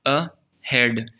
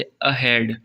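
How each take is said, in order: First: "अहेड" slowly as "अ", pause, "हेड"; split, second syllable stressed. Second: "अहेड" as one word, weight on "हेड"; stress on second syllable. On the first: Teacher demonstrating stress, "अहेड" pulled apart slowly before "हेड". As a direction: break "अहेड" in two and press on "हेड". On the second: Teacher giving an example, "अहेड" stressed on "हेड". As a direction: say "अहेड" joined, leaning on its second half. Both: Shown as a demonstration. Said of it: "अब हेड के ऊपर हम जोर दे रहे".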